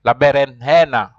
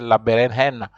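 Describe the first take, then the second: First: The j is sounded like an h. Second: The same.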